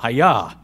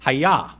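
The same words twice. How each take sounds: First: Hayah chopped short, a bit louder, falling; karate chop. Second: Said in the usual way. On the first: Shown as a demonstration. Preacher chopping the Hebrew word for the congregation, sharp. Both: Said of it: "kinda like almost a karate chop".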